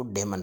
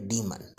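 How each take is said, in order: First: डेमन with "de" in place of "dee"; common mispronunciation. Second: डीमन with long EE; correct pronunciation. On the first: Teacher quoting how people often read it, common mispronunciation. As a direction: say डेमन as "day-mun". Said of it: "अक्सर लोग इसको". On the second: Teacher correcting what people often say, correct pronunciation. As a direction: say डीमन as "dee-mun". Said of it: "यह है डीमन". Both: Shown as a demonstration.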